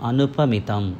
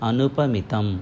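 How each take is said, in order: The two takes are said the same way.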